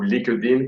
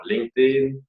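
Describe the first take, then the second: First: LinkedIn said the way the French say it; French pronunciation. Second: Said in the usual way. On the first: Shown as a demonstration. Trainer aside to viewers on how the French say LinkedIn, French pronunciation. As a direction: say LinkedIn Frenchified, roughly "leek-deen", without the English "ng". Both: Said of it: "comme disent les Français".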